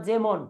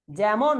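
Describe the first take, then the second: First: যেমন as "jemon", close e; close vowel. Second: যেমন as "jæmon", open æ; wide first vowel in যেমন. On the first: Teacher repeating the alternative, যেমন with close e. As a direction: tight first vowel in যেমন. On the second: Teacher repeating the question, যেমন with open æ. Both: Shown as a demonstration.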